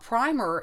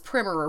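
First: The first vowel is a long I. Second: The first vowel is a short I. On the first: This is a later pronunciation. "a later pronunciation" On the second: This is the original pronunciation. "Originally, the short I was the original pronunciation"

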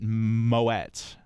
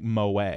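First: The word ends with a clear T sound. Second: The word ends without a T sound. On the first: The speaker calls it right. "I'm going to actually pronounce it the way it looks" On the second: The speaker calls it wrong. "what my instinct is telling me to do is to say something like moe"

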